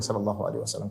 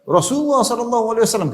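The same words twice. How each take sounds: First: Soft, low listener's reply; hushed congregational response; quiet response. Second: High, raised sermon voice; ringing high-pitched pulpit call; preacher's proclamation. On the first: Shown as a demonstration. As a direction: murmur the blessing under your breath. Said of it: "tidak perlu kencang-kencang". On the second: Acted. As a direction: proclaim it like a khatib at Friday sermon. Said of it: "khatib mengatakan".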